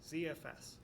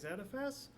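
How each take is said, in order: First: The Z is said the American way. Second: The Z is said the international way. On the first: This is how the American company said it. "Sun Microsystems is ... in the United States, so they they would have said Z F S" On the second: This is how other English-speaking countries say it. "I tend to prefer the international viewpoint, so I usually say Z F S"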